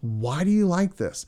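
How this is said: It sounds warm and genuinely curious.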